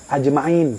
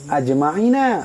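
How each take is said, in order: First: The word ends on the final consonant. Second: The word ends with an added final vowel. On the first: The reciter stops at this word. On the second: The reciter continues without stopping.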